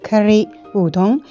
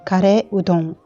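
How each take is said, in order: First: It is said in a non-Japanese, Western way. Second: It is said with Japanese pronunciation. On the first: "Sulla miniatura ho scritto curry udon" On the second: "in giapponese pronunciamo curry udon"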